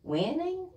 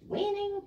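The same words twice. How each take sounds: First: Incredulous question, pitched higher; disbelieving. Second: Much higher, squeaky incredulous repeat; mock outrage. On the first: Acted. Paul doubting Evan's winning claim, incredulous. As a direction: scoff at the word in disbelief. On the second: Paul repeating Evan's word, mock-outraged disbelief. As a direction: push the disbelief over the top.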